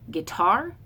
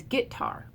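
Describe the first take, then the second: First: "guitar" as gi-TAR, second syllable raised; stress on second syllable. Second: "guitar" as GIT-tar, first syllable hit; stress on first syllable. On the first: Shown as a demonstration. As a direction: push the weight onto the end of "guitar". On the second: Retold or imitated. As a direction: imitate the Appalachian trochee in "guitar". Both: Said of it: "he says it as a trochee".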